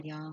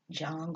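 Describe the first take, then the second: First: The name begins with a Y sound. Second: The name begins with a J sound. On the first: "I've heard it pronounced Young" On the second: "the J may be, um, I don't know if you want to say silent"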